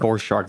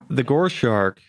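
First: The first word begins with a V sound. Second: The first word begins with a G sound. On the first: The speaker calls it right. "it's vor shark" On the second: The speaker calls it wrong. "I think you're saying that wrong"

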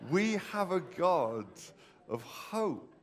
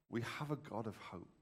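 First: It is said with more confident energy. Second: It is said plainly, without extra force.

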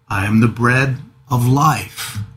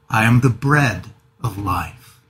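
First: The stress is on life. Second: The stress is on bread.

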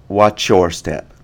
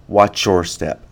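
Both takes have the same delivery.

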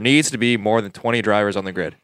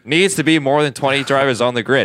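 First: It is said in an ordinary, less forceful way. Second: It is said loudly and with strong force.

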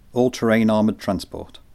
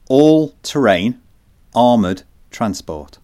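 First: It is said at normal quick pace. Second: It is said slowly and deliberately.

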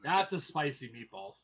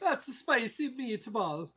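First: It is said in a normal speaking voice. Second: It is said in a put-on commercial voice.

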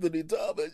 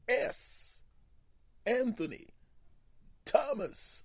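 First: The name flows without a pause inside it. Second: The name is broken by a pause inside it.

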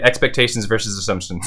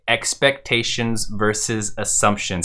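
First: The phrase is said at a fast pace. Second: The phrase is said at a normal pace.

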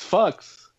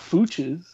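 First: The name sounds like one syllable, 'fox'. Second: The name sounds like two syllables, 'foo-ches'. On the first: The speaker calls it right. "It's Fox" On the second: The speaker calls it wrong. "It's not Fooches"

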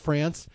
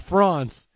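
First: The word is said with an American pronunciation. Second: The word is said with a French pronunciation. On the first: The speaker calls it wrong. "It's a very American pronunciation to say France" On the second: The speaker calls it right. "someone actually has to correct her, and they say France"

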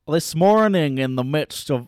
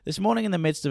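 First: It is said in an attempted Scottish accent. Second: It is said in the speaker's normal accent.

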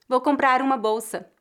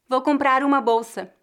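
Both takes have the same delivery.

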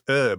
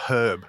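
First: The word is said with an American pronunciation. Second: The word is said with a British pronunciation. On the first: This is how the children say it. The speaker calls it right. "It's herb" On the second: This is how the father says it. The speaker calls it wrong. "not herb"

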